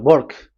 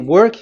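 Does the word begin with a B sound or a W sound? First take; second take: B sound; W sound. First: The word begins with a B sound. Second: The word begins with a W sound. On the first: "they say uh, work. ... W is pronounced as B" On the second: "if you say work"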